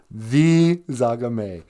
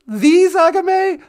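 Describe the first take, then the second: First: Dry host confirming The Zagame; deadpan confirmation. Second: The Zagame? slow, much higher and louder puppet voice, rising in awe; awed puppet. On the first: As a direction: answer The Zagame. flatly and slowly. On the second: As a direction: gasp The Zagame? as a starstruck puppet. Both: Acted.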